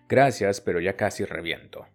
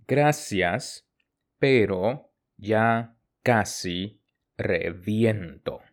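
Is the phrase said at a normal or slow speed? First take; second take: normal; slow. First: The phrase is said at normal conversational speed. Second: The phrase is said slowly and carefully.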